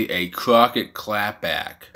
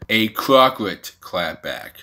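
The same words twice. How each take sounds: First: Said in the usual way. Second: "Crockett" said slowly with an extra R, "Crock-rit"; deliberate "Crock-rit" for "Crockett", drawn out; misspelling read aloud. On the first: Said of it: "It was supposed to say". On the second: Shown as a demonstration. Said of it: "C R O C K R T T".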